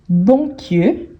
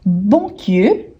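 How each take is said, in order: Both takes have the same delivery.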